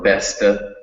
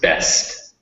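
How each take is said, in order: First: An extra vowel is added after the final consonant. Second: The word ends cleanly on the final consonant. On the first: The speaker calls it wrong. "not not one's or besta" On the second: The speaker calls it right. "just best"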